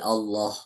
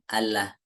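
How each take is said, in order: First: The L sound is pronounced thick and heavy. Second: The L sound is pronounced thin and light. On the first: The speaker calls it right. "tapi Allah ... lamnya tebal" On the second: The speaker calls it wrong. "Bukan Allah"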